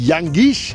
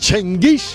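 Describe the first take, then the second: First: The name begins with a 'yang' sound. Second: The name begins with a 'chen' sound. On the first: This is how the English say it. "ইংলিশরা বলে ইয়াঙ্গিশ" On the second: This is how it is said in the speaker's home country. "আমার জন্মদেশে বলে চেঙ্গিস"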